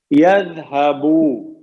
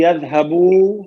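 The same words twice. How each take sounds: First: Drawn-out teacher demo; slow drawn model word. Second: Said in the usual way. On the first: Shown as a demonstration. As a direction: stretch يذهبو slowly: يذ-ہ-بو with a long final و. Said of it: "teacher models the verb form". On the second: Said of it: "teacher repeats the form".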